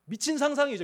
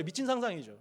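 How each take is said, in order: First: 상상이죠 hit higher and louder; stress on 상상이죠. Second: Said in the usual way. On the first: Shown as a demonstration. Preacher exclaiming to the congregation, 미친 상상이죠 stressed. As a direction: punch 미친 상상이죠 up high.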